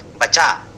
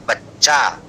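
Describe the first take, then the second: First: बचा with one short च and no hold; बचा without the doubled consonant; single ch, no doubling. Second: बच्चा with the च held double; बच्चा with a geminated च; doubled ch. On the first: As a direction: read बचा as ba-cha, the च not doubled. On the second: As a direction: lean on the doubled च in बच्चा, bach-cha. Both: Shown as a demonstration. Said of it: "द्वित्व पूर्वक उच्चारण करना होगा".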